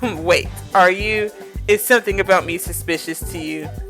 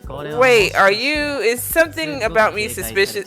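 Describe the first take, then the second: First: It is said in a lower, masculine voice. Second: It is said in a high, girlish voice.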